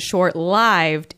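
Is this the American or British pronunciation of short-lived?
American. It is said with an American pronunciation. "is the American English pronunciation of that phrase"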